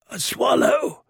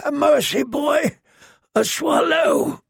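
First: A little higher, pleading for a swallow; hint of a begging prisoner. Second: High, slow, begging plea; desperate caged man. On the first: Fat caged man calls down to the girl, pleading. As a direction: reach up to her with a plea. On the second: Acted. Fat prisoner begs the girl for a swallow, high and slow. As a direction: drag out the plea for mercy. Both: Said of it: "the fat man called down".

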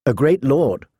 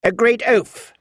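First: Put-on politely restrained young lady's reply. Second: Put-on higher, tart old lady's correction; Queen of Thorns. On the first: Sansa answering about the lady's son, polite. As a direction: answer with careful courtesy. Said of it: "Sansa answered politely". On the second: Lady Alina mocking her son, tart and higher. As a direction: correct her with withering scorn. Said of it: "said the Queen of Thorns". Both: A narrator's reading.

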